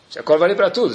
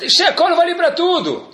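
First: Said in the usual way. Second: High, drawn-out protest; exclaimed as a confident excuse; insistent excuse. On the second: Acted. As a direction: insist on it slowly, pitched way up. Acted excuse, then calmly conceded.

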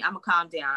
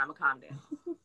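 First: Said in the usual way. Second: Softer and lower, settling down; deliberately calmed. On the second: Real, not acted. Promising viewers to stop yelling, softer and lower. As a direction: bring the voice right down to calm.

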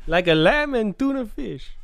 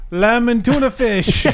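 First: Said in the usual way. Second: High, slow silly character voice; silly impression. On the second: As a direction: draw out the line in a high put-on voice. Doing celebrity impression bit.

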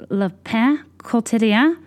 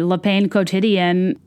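First: "Le Pain Quotidien" slowly, in a put-on French accent; French accent, drawn out, unsure rising end; mock French accent. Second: "Le Pain Quotidien" in a flat American reading, slowly; American reading of "Le Pain Quotidien", no French sounds; anglicized pronunciation. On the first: Saying the café name in French to a friend, careful French accent. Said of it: "you have to be like". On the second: Retold or imitated. Ordering plainly to a friend, Americanized "Le Pain Quotidien". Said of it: "then if I said".

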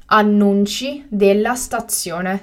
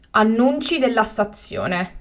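First: Slow and carefully spaced; slow, clear repetition. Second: Said in the usual way. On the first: Shown as a demonstration. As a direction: say it again slowly for learners. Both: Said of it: "teacher repeats the word twice".

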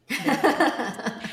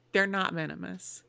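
First: Louder, higher, laughing through it; laughing repeat. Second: Said in the usual way. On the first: Real, not acted. Owning up to the camel prank, laughing loudly. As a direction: crack up on the punchline.

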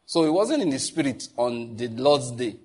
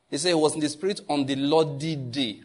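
First: Said in the usual way. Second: Lordly said firmly, day kept plain; stress on Lordly. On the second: Shown as a demonstration. Preacher correcting a misread verse, stress on Lordly. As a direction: lean on the word Lordly to correct the reading. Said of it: "What's the Lordly day?".

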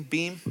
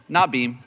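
First: "beam?" asked with a rising, unsure tune; a hesitant rising "beam?"; unsure question. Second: "Not beam" with the weight on "Not", falling; a firm self-correction, "Not" stressed; correcting himself. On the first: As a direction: try out "beam?" as a doubtful guess, rising at the end. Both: Shown as a demonstration.

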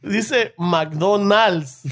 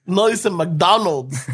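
First: Dice McDonald's said slowly, weight on Dice; slow spelled stress. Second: No dice McDonald's said slowly, weight on no; slow correction. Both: Shown as a demonstration.

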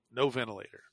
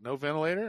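First: Said in the usual way. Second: VENTILATOR lifted into a rising question; higher pitch, "ventilator" going up at the end as a query; questioning echo. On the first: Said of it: "And he's like, "No ventilator?". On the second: Retold or imitated. Doctor checking the patient's refusal, "ventilator" said as a rising question. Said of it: "And he's like".

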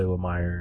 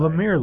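First: "Lemire" with second syllable like "mire"; Lemire as luh-MIRE. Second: "Lemire" with second syllable like "mere"; Lemire as luh-MEER. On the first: Co-host reports what he's heard people say, "Lemire" as luh-MIRE. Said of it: "I've heard people say Lemire". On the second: Co-host picks what looks right to him, "Lemire" as luh-MEER. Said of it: "Lemire looks right to me". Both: Shown as a demonstration.

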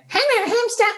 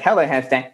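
First: Squeaky, very high toy voice; tiny high-pitched playback voice; high-pitched toy hamster. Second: Said in the usual way. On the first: Acted. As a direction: squeak it back like an annoying recording toy. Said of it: "plays it back really high-pitched". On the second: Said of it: "It's like".

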